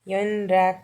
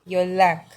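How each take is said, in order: First: The middle is pronounced as n followed by r. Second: The middle is pronounced as a double l. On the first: The speaker calls it wrong. "हम इसे योन राख नहीं बोलेंगे" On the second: The speaker calls it right. "न का ल हो जाएगा, रा का ला हो जाएगा"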